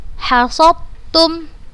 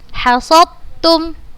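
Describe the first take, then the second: First: The d merges completely into the following t. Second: The same.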